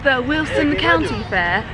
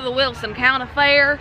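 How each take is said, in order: First: It is said in an English accent. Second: It is said in an American accent. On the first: The speaker calls it wrong. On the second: The speaker calls it right.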